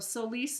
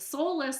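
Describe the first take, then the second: First: The name does not sound like soulless. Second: The name sounds like the word soulless. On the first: The speaker calls it right. "Solis is the new way I'm pronouncing it" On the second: The speaker calls it wrong. "I keep saying, sounds like soulless, without a soul"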